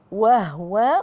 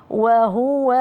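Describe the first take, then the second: First: وهو with uneven letter lengths; wrong letter timing. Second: وهو chanted slowly with evenly timed letters; sung, recite وهو smoothly, final vowel held; sung, correct letter timing. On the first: Teacher showing students an error, mistimed pronunciation. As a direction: squeeze the middle of وهو out of time. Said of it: "خطأ". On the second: Sung, teacher showing students correct timing, measured recitation. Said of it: "لا أقول وهو". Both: Shown as a demonstration.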